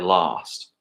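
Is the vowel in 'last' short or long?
long. It is said with a Southern English accent.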